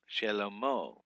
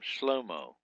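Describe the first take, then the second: First: A short vowel follows the first consonant. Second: The first two consonants run together without vowel. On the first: "Shelomo is the correct pronunciation" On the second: "some people don't even put the Shavah in here"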